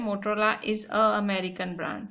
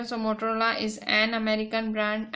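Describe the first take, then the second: First: A drawn out before American, the casual version; stress on a. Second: Slow, with an pressed before American; stress on an. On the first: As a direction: lean on a as people say it loosely. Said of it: "अगर आप ऐसे ही बोलते हो". (बोलचाल वाले अंदाज़ में a पर ज़ोर) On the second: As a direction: lean on an, the rule-book version. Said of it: "rules के हिसाब से जाते हो". (नियम के हिसाब से an पर ज़ोर देकर) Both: Shown as a demonstration.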